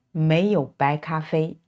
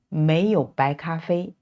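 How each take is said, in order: First: The tongue twister said quickly; faster drill. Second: Said in the usual way. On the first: Shown as a demonstration. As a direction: rattle it off fast. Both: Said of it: "Now this time we try faster".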